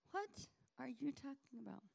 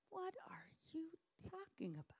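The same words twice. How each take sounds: First: High, puzzled question; baffled disciple. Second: High, breathless whispered question; baffled whisper. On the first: Disciples baffled by Jesus, high puzzled question. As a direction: ask it in bewilderment. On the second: Disciples baffled by Jesus, whispering high and stunned. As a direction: whisper it in bewilderment. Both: Acted.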